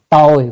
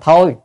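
First: The word begins with a plain t sound. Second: The word begins with an aspirated th sound. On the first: "Chữ này có hai âm, tồi hoặc là thôi" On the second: "Chữ này có hai âm, tồi hoặc là thôi"

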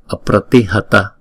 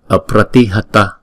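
The two takes are said the same way.

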